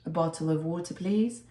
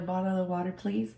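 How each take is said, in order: First: It is said in a British-sounding accent. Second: It is said in an American-sounding accent. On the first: People here could not understand it. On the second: People here can understand it better.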